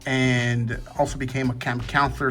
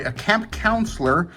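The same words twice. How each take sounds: First: Slurred words around a retainer; wearing a retainer. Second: Said in the usual way. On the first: Real, not acted. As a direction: speak with a retainer in. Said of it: "So, sorry, a camp counselor". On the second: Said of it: "So, sorry".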